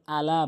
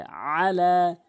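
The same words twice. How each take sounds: First: "আলা" starting with a light glottal "আ"; hamza instead of ain. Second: "আলা" slow, opening on a squeezed throat sound; ain from mid-throat. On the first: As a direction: begin "আলা" with no throat squeeze. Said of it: "হামজা এনে উচ্চারণ করে". (হামজা দিয়ে "আলা") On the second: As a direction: press out the first "আ" of "আলা" and hold it. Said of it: "আইন এনে হলকের মাঝখান থেকে". (আইন দিয়ে টেনে "আলা") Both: Shown as a demonstration.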